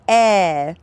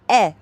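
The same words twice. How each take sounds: First: The vowel is held long. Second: The vowel is held short. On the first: "two E's" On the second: "An E"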